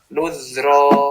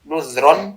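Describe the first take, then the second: First: The word ends with a long vowel. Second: The word ends with an n sound. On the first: "suara nunnya itu sudah hilang ketika dipokofkan" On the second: "suara nunnya"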